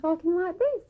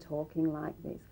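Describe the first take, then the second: First: Much faster speed at a higher pitch. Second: Moderate speed at a middle pitch. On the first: The person is thinking in pictures. "a visual would be much faster and higher" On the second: The person is accessing sounds. "an auditory would just be mid-range and talking like this"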